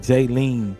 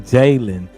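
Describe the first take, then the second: First: The last syllable has a long ee sound. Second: The last syllable has a short e sound. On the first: The speaker calls it wrong. "It don't say Jaylene" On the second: The speaker calls it right. "It say Jalen"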